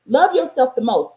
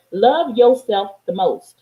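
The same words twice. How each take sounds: First: Said in the usual way. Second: Spoken slowly, each word weighed; slow mantra. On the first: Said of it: "repeated mantra, second take". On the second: Shown as a demonstration. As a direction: lay it down slow and deliberate. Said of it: "repeated mantra, first slow take".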